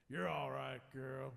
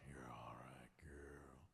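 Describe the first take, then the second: First: It is said in a plain, non-suggestive tone. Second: It is said in a sensual, suggestive tone.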